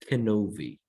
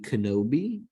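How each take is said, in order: First: The last consonant is a V sound. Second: The last consonant is a B sound. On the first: This is the Hebrew pronunciation. "it is pronounced with a V sound" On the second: This is the English pronunciation. "It would be Kenobi"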